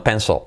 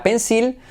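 First: Pencil as "penso", falling; dark final L. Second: Pencil with a clear "seel" ending, rising; Spanish-read pencil. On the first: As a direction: say pencil with the L swallowed. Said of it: "sino pencil". (pencil como "penso") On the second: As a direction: say pencil as written, in Spanish sounds. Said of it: "no será pencil". (pencil como "pensil", a la española) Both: Shown as a demonstration.

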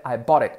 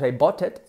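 First: "bought it" linked, first T as a tapped R; soft R linking. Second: "bought it" quick, with both Ts fully released; hard T. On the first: Teacher gives native version of "bought it", T as soft R. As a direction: say "bought it" like "bawrit". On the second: Teacher shows what not to say, "bought it" with hard Ts. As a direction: punch crisp separate Ts in "bought it". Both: Shown as a demonstration. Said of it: "Fijaros que no es".

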